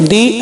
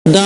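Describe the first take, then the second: First: ది as "dee", not "da"; pronounced "dee". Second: ద as "da", not "dee"; pronounced "da". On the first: Teacher showing the other allowed way to say "the": ది, pronounced "dee". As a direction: say ది with an "ee" vowel. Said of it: "ది అని కూడా pronounce". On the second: Teacher showing one allowed way to say "the": ద, pronounced "da". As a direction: say ద with a drawn open "a". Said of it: "ద అని pronounce చేసుకోవచ్చు". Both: Shown as a demonstration.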